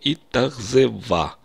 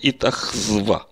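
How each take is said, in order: First: A vowel is said between the z and v. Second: Three consonants are said in a row with no vowel. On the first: The speaker calls it right. "я как бы разбавляю 3 согласных звука гласным звуком" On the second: The speaker calls it wrong. "сокращая гласный звук, то у меня 3 согласных звука подряд получится"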